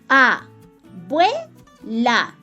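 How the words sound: The word is split into separate syllables. "vocalizando cada palabra separada en sílabas"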